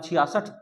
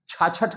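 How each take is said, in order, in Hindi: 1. बीच का हिस्सा एक 'chhiya' अक्षर है। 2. बीच का हिस्सा एक छोटा 'chha' अक्षर है। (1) "इसका नाम छियासठ।" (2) "छाछठ गलत शब्द है कि नहीं?"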